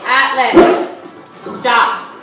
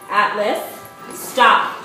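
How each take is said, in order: First: It sounds angry, like an outburst. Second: It sounds calm, firm and controlled.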